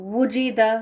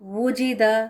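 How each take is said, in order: No difference in how they are said.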